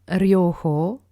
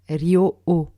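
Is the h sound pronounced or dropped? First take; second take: pronounced; dropped. First: The h sound is clearly pronounced. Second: The h sound is left out. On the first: The speaker calls it right. "On a tendance à ne pas prononcer le H, mais il est présent" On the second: The speaker calls it wrong. "et non Ryo-O"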